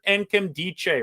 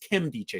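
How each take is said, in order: First: The name begins with a pronounced N sound. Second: The name begins without any N sound. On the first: The speaker calls it wrong. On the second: The speaker calls it right.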